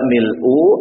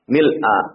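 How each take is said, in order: First: The word ends with a u vowel. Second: The word ends with an a vowel. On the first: The word is in the nominative case. The speaker calls it wrong. "Tidak mil'u" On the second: The word is in the accusative case. The speaker calls it right. "Jadi dibacanya mil'a. Ya. Tanda nasabnya itu fathah"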